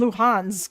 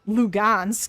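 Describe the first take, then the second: First: The middle consonant is an H sound. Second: The middle consonant is a G sound. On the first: "I thought it was Luhansk" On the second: "I didn't think it was, um, Lugansk"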